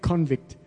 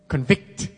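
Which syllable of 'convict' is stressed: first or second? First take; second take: first; second. First: The stress is on the first syllable. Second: The stress is on the second syllable. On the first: The speaker calls it wrong. "Not convict" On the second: The speaker calls it right. "The emphasis is on the vict"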